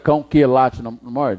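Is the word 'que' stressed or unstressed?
stressed. The word que is strong and stressed. The speaker calls it wrong. "Precisei falar"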